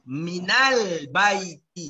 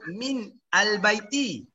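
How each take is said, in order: First: The words are linked into one smooth unit. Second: The words are said separately, not linked. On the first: The speaker calls it right. "Jadi minal baiti" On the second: The speaker calls it wrong. "kita tak boleh nak sebut"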